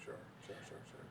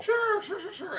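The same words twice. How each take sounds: First: Very soft throwaway sure sure; muttered sures. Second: High, sing-song sure sure; mock eager sures. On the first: Real, not acted. Brushing off the co-host's point, very soft sures. Dismissive agreeing. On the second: Teasing agreement about the fake article, high sarcastic sures. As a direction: toss it off in a sarcastic squeak.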